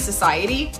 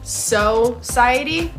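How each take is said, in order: First: The first syllable is said like 'suh'. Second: The first syllable is said like 'so'. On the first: "I think it's supposed to be society" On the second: "but it's so-ciety"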